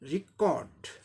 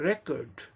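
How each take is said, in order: First: The stress is on the second syllable. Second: The stress is on the first syllable. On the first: It is used as a verb. "Second syllable पर stress चला जाएगा" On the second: It is used as a noun. "पहले syllable पे stress है"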